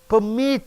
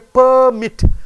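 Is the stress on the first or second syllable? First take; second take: second; first. First: The stress is on the second syllable. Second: The stress is on the first syllable. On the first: It means to allow. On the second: It means a license.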